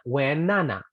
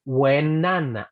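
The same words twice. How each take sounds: First: "when Nana" at normal pace, n starting the name; linked. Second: "when Nana" very slowly, the n moved onto "Nana"; slow linked. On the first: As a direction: say "when Nana" as one flow. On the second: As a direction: stretch "when Nana" slowly, n starting the name. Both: Shown as a demonstration. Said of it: "podrías decir".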